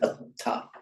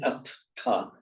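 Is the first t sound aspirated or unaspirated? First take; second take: unaspirated; aspirated. First: The first t is unaspirated without a puff. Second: The first t is aspirated with a puff. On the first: The speaker calls it right. "the first one loses its aspiration" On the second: The speaker calls it wrong. "you can't say at-ta"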